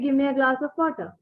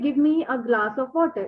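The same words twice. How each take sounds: First: Give me is blended into one word, gimme. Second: Give me is said as two separate full words. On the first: The speaker calls it right. "you can say" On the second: The speaker calls it wrong. "natives generally don't say like this"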